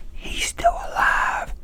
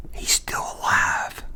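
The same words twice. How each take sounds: First: Slow breathy whisper. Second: Hushed whisper in a dark theater. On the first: Whispering again to his friend in the theater. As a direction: keep it secret, just air. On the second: Whispering to his friend during the movie. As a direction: breathe it out under your breath. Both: Retold or imitated. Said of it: "And I whispered that".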